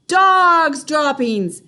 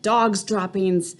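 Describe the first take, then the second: First: High, loud and slow; witches' slow loud cry; shouted. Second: Said in the usual way. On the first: A narrator's reading. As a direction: roar it like the whole room. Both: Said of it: "they shouted".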